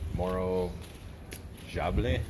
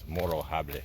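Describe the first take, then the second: First: The J is said like an English J. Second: The J is said like an H sound. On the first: The speaker calls it wrong. "I'm going to get the pronunciation wrong" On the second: The speaker calls it right. "You don't actually pronounce the J"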